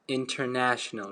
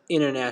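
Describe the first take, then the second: First: The t after the n is clearly pronounced. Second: The t after the n is dropped. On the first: "In British English, they pronounce international" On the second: "in American, it's gonna sound international"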